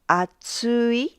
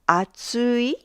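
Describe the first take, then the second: First: The pitch rises, then stays level to the end. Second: The same.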